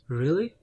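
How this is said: It sounds sad and disappointed, in a different tone. The listener is let down by what was said. "So it's a kind of disappointment"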